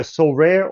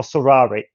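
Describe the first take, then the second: First: Sorare said as "so-RARE", silent final e; first pronunciation option. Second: Sorare said as "so-RAH-ray", three syllables; alternative pronunciation. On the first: Guest offers host a first guess at the name, Sorare as "so-RARE". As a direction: say Sorare in two syllables, ending like "rare". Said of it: "I apologize if I mispronounce it". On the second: Guest offers host a second guess at the name, Sorare as "so-RAH-ray". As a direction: say Sorare with an open "rah" and a sounded ending. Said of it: "not quite sure which is the right". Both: Shown as a demonstration.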